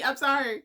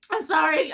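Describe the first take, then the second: First: Said in the usual way. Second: Louder, higher I'm sorry; a sudden loud I'm sorry; flustered apology. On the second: Real, not acted. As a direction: blurt out the apology. Apologizing after getting emotional.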